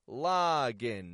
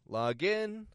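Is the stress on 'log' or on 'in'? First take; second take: log; in. First: The stress is on the first part, log. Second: The stress is on the second part, in. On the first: It is a noun. "Now we're reversing the stress" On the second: It is a verb. "I'm raising my tone for the in"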